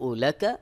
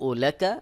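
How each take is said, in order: The two takes are said the same way.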